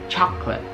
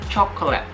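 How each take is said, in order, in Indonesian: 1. Kata itu diucapkan dengan dua suku kata. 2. Kata itu diucapkan dengan tiga suku kata. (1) "sebenarnya ini hanya dua" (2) "banyak yang beranggapan kalau ini tiga uh, suku kata"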